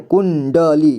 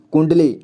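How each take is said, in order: First: कुंडली drawn out as "kun... da... lee"; कुंडली read piece by piece for a learner; sounded out. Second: Said in the usual way. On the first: Shown as a demonstration. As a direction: break कुंडली into three syllables. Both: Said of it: "तो इसे कुंडली पढ़ेंगे".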